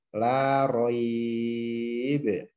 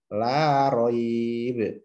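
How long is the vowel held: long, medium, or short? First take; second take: long; short. First: The vowel is held longest, about six counts. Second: The vowel is held briefly, about two counts. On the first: "tiga alif ... enam harokat" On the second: "satu alif"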